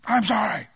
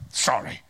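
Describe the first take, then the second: First: Fake sincere sorry. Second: Put-on whispered, grudging child apology; sulky mumbled sorry. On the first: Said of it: "Just say it like I mean it". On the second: Child forced by parent to apologize, sulky whisper. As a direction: barely breathe the word out.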